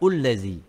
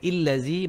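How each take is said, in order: First: The word begins with a 'u' vowel. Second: The word begins with an 'i' vowel. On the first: "bukan ullazi" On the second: "Bukan illazi"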